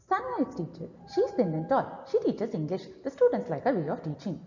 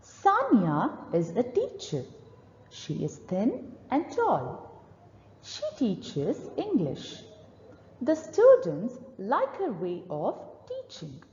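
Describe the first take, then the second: First: Rushed, fast reading; gabbled fast reading aloud; too fast. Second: Said in the usual way. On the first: Shown as a demonstration. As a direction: race through the lines too quickly. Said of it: "this is the fast pace you need to avoid". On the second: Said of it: "observe the right place to read".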